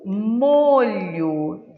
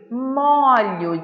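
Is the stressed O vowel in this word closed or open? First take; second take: closed; open. First: The stressed O vowel is closed. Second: The stressed O vowel is open. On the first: It means sauce. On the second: It means bundle.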